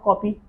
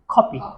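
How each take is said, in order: First: The first k sound has no puff of air. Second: The first k sound has a puff of air. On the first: The speaker calls it wrong. "Not copy" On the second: The speaker calls it right. "These three sounds are aspirated sounds"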